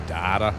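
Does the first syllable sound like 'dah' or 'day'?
dah. The first vowel sounds like an open 'ah'. "I have to say data, because that's how we talk"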